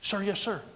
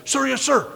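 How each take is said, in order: First: Higher, softer recruit reply; quick obedient answer to a commander; restrained parade-ground acknowledgement; military response. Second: Loud, high recruit's shout; eager parade-ground reply; military response. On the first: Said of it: "commander comes out and he says it". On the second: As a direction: answer the commander at full snap. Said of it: "commander comes out and wants you to say". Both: Acted.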